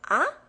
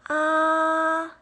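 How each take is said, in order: First: The pitch rises from lower to higher. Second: The pitch stays level and fairly high. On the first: "the second tone, it rises" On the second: "The first tone is flat. It's on the same level. It's a little high pitched"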